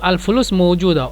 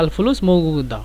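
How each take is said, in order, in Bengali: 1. "mawjuda" শব্দটি j ধ্বনি দিয়ে বলা হয়। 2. "mawjuda" শব্দটি শক্ত g ধ্বনি দিয়ে বলা হয়।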